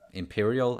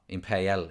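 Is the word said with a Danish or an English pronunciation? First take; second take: English; Danish. First: It is said with an English pronunciation. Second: It is said with a Danish pronunciation. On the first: This is the word's actual form. "but it is Imperial" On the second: This is how locals name the cinema. "is how we pronounce it"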